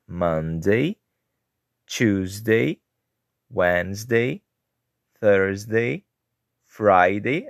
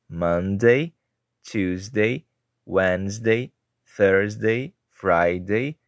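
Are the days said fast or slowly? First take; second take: slowly; fast. First: The days are said at a slower pace. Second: The days are said at a faster pace.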